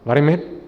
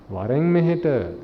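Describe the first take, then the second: First: It is said in an angry, hostile tone. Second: It is said in a loving, gentle tone.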